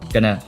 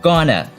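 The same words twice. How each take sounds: First: It is said lightly and quickly, reduced. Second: It is said in its full, careful form. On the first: "在口语里面一般都发" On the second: "在字典里的发音是"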